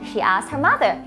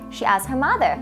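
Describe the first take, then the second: The two takes are said the same way.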